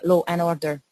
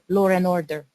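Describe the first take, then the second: First: No R sound links law and and. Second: An R sound links law and and.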